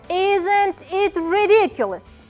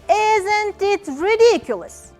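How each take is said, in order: First: The voice falls at the end. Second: The voice falls at the end.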